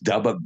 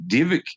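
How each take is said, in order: First: The middle consonant is a B sound. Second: The middle consonant is a V sound.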